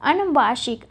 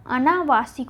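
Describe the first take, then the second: First: अनवासिक with n run into v; the mistaken an-vaa in अनवासिक; wrong form अनवासिक. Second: अनावासिक with long aa after n; correct form अनावासिक. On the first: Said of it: "अनवासिक नहीं होता". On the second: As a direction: say अनावासिक as a-naa-vaa-sik. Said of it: "अनावासिक होता है". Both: Shown as a demonstration.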